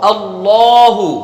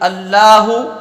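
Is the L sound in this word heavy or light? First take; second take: heavy; light. First: The L is pronounced heavy and full. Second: The L is pronounced light and thin. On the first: The speaker calls it right. "इसे मोटा करना है, पुर करना है" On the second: The speaker calls it wrong. "खाली पढ़ा अल्लाहु तो ये सही तरीका नहीं है"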